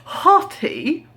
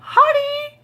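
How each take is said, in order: First: Mock shout. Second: "Hottie" squeaked way up high like a flirty call; squeaky high hottie. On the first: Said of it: "I was gonna shout out". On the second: Retold or imitated. Calling out to a stranger she mistook for her man, squeaked high. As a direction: pitch "Hottie" right up into a silly squeal. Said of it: "but, like".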